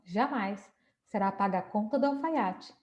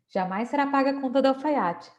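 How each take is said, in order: First: There is a pause right after 'Jamais'. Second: It runs on with no pause after 'Jamais'.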